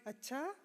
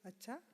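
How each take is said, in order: First: It sounds surprised. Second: It sounds gossipy and intrigued. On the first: The speaker did not expect this. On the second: The listener wants to hear more gossip. "A common word used while gossiping"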